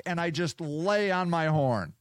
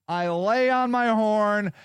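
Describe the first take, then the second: First: Said in the usual way. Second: Slower, higher and louder, leaning on "lay"; insistent repeat, punching "lay"; stress on lay. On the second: Real, not acted. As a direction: drag out "I lay on my horn" and push "lay". Repeats it with emphasis.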